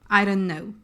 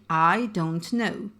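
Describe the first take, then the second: First: Some sounds are dropped and run together. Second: Every sound is pronounced clearly and fully. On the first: "we'll say" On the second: "carefully pronouncing every sound"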